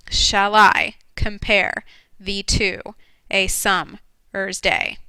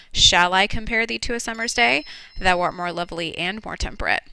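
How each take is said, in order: First: Very slow, each syllable counted out; counting the beats. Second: "Shall I compare thee to a summer's day?" with every second syllable pushed; forced iambic stress. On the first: Teacher to class counting syllables, very slow. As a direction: spell out "Shall I compare thee to a summer's day?" slowly, one beat at a time. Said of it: "so that's ten beats". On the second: Teacher to class showing the meter, da-DUM stressed. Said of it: "if you force it, you can then hear". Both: Shown as a demonstration.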